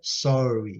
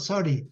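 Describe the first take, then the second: First: It is said with a standard accent. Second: It is said with an Indian accent. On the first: "na verdade, a pronúncia é sorry" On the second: "os indianos, eles falam sorry, sorry"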